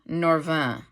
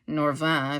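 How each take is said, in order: First: The name is said with English pronunciation. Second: The name is said with French pronunciation.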